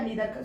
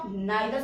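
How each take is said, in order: First: The first vowel sounds like 'ee'. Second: The first vowel sounds like 'eye'. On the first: "या नीदर speak करो, both are correct" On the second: "इसे भी आप नाइदर speak करो"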